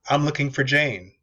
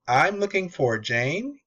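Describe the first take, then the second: First: The voice falls at the end. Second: The voice rises at the end. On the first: The caller sounds authoritative, not asking. The speaker calls it right. "You actually want to ask it on a downswing" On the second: The caller sounds like asking a question. The speaker calls it wrong. "in a question format"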